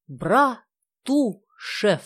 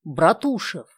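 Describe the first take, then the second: First: Братушев drawn out very slowly, each syllable relished; savoring the name. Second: Said in the usual way. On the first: Shown as a demonstration. Nadezhda lets her friends savor the name Братушев, very slowly. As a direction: stretch Братушев out, letting them hear it. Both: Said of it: "вы только вслушайтесь".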